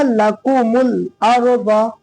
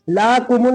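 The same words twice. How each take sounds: First: "लकुमुल अर्द" measured, with a short "ल"; short first vowel. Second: "लाकुमुल" with "ला" held too long; wrong long first vowel. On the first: Teacher giving the correct reading, short "ल" in "लकुमुल". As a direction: recite it slowly but keep "ल" in "लकुमुल" brief. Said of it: "क्या होगा?". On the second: Teacher showing what it is not, long "ला" in "लाकुमुल". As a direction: lengthen the first syllable of "लाकुमुल". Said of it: "लाकुमुल नहीं होगा". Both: Shown as a demonstration.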